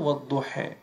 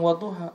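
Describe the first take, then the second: First: The final vowel is fronted to an 'eh' sound. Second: The final vowel is an open 'ah' sound. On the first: This is the tribe's own dialect form. "bilangnya wadduha" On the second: This is the standard recitation. "nggak bisa bilang wadduha"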